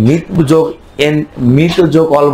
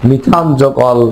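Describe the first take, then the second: First: মিথ cut to one syllable "mith" before যোগ অল; rejected short form. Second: মিথান in two syllables, "mi-thaan", before যোগ অল; correct full form. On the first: Teacher showing what we will not say, one-syllable "mith" in মিথ. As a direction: say মিথ without any "aan" ending, then যোগ অল. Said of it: "বলবো না". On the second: Teacher giving what we should say, full "mi-thaan" in মিথান. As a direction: say মিথান with the "aan" ending, then যোগ অল. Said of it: "কি বলবো?". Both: Shown as a demonstration.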